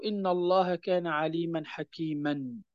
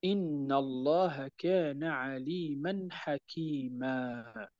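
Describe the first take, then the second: First: حكيما said with its full nunation, ending ħakiman; wrong tanween. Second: Slow and soft, حكيما ending in a long drawn a with no n; correct stop with madd. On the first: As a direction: keep the an sound on حكيما. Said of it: "ولا نقول". (حكيما بالتنوين كاملًا، وهو نطق خاطئ عند الوقف) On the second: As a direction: stretch the last a of حكيما and drop the n. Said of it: "وإنما نقول". (حكيما بمدّ العوض عند الوقف ببطء وهدوء) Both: Shown as a demonstration.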